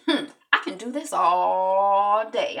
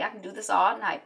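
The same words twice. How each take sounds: First: Slow, drawn-out taunt. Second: Said in the usual way. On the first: Retold or imitated. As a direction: tease him, taking your time.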